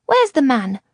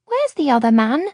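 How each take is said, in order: First: Put-on high child voice, louder, demanding; a small girl pressing for an answer; insistent little girl. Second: Put-on little girl asking. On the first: Girl asking Luca again, louder and firm. Girl repeats her question. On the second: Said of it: "she asked". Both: A narrator's reading.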